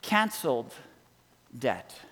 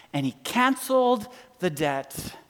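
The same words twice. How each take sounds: First: "Canceled" and "debt." said apart, each falling and soft; slow defining statement. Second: Said in the usual way. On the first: Shown as a demonstration. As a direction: let "Canceled" and "debt." land separately with a pause. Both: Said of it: "here's how he defines it".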